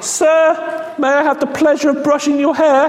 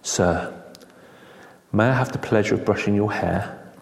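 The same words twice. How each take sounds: First: It is said loudly and abruptly. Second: It is said softly and gently.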